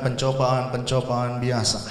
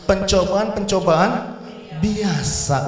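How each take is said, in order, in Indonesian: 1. Kata terakhir diucapkan pendek dan biasa saja. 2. Kata terakhir diucapkan panjang dan ditarik. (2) "Harus; Tarikannya harus seperti itu"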